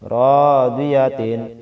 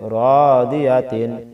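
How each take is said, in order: The two takes are said the same way.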